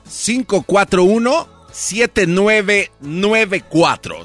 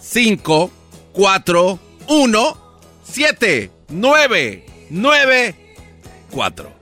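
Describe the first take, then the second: First: The numbers are said at normal speed. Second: The numbers are said slowly.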